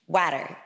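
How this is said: It is said in an American accent.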